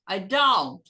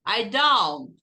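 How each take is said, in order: First: Don't with a slightly open O; correct don't. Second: Don't with the O opened a little; don't said the English way; correct don't. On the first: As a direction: round out the o in don't. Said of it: "Abre um pouco o O". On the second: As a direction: open the o in don't. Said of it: "Não precisa falar don't". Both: Shown as a demonstration.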